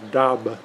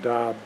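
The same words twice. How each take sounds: First: The final B is audibly released. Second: The final B is held without release. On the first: The speaker calls it wrong. "it's not pronounced DAB" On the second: The speaker calls it right. "The B is unreleased"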